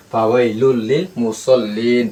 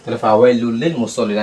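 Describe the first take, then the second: First: Slow, stretching মুসল্লিন at the stop; slow stretched recitation. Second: Said in the usual way. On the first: Shown as a demonstration. Teacher to students, reciting with the long pause at the stop, slowly. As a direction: lengthen the last vowel of মুসল্লিন before stopping. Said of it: "অফ হইলে কি হবে?". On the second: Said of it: "আগে আবার একবার বুঝে দিই".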